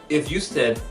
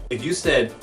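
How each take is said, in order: Both takes have the same delivery.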